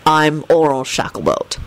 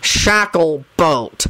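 First: Flat, even introduction; deadpan officer. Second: Very slow, spat-out correction; drawn-out irritated emphasis. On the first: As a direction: state name and title tonelessly. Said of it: "Kingsley responded flatly". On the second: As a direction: spit the name out syllable by syllable. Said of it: "Kingsley spat out". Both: A narrator's reading.

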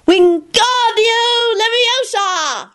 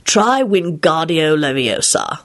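First: High, very slow spell cry; boy levitating Kenny; shouted spell. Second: Lupin coaching his son; calm instruction. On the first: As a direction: cast it with all his might. Teddy casting excitedly. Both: A narrator's reading.

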